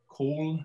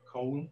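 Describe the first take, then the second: First: COAL with a long pure O, no glide; traditional Welsh English. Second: COAL with a gliding diphthong O; received pronunciation. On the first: Linguist demonstrating the Welsh accent to an audience, COAL with a monophthong. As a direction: say COAL the Welsh way, "kohl" held on one vowel. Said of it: "a simple long monophthong". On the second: Linguist giving example words for comparison, COAL in received pronunciation. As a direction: say COAL the RP way, two vowel sounds run together. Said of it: "in received pronunciation". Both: Shown as a demonstration.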